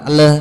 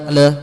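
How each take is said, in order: No difference in how they are said.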